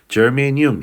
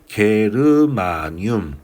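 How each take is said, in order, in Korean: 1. 부드러운 J 소리로 시작합니다. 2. 딱딱한 G 소리로 시작합니다. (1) "germanium 이렇게 발음을 해요" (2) "영어 발음으로도 게르마늄 이렇게 쓰는데요"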